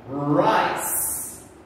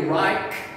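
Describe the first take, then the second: First: The C is said with a soft S sound. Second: The C is said with a hard K sound. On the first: The speaker calls it right. "that is when we make the S sound" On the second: The speaker calls it wrong. "We cannot say Reich. That is not correct"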